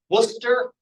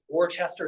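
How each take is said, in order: First: It is said with two short syllables. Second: It is said with three syllables, as spelled. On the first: The speaker calls it right. "is called Worcester" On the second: The speaker calls it wrong. "looks like it's Worcester"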